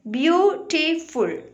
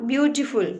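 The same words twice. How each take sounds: First: "Beautiful" slowly as beau, ti, ful; three separate, measured beats on "Beautiful"; syllable by syllable. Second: Said in the usual way. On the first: Shown as a demonstration. Teacher modelling pronunciation for children, "Beautiful" divided into three syllables. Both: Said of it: "Like this way we have to pronounce it".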